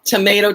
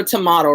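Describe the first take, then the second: First: "Tomato" said tuh-MAY-toh; pronounced to-MAY-to. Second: "tomato" said tuh-MAH-toh; pronounced to-MAH-to. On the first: Streamer likening the pecan debate, Tomato as to-MAY-to. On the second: Streamer likening the pecan debate, tomato as to-MAH-to. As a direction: say "tomato" with an open "ah" in the middle. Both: Shown as a demonstration. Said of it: "but some people say pecan".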